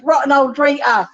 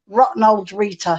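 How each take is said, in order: First: Higher-pitched, joking Cockney imitation; Cockney accent. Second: Said in the usual way. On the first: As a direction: tease with a light mock-Cockney lilt. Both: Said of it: "like that in his Cockney accent".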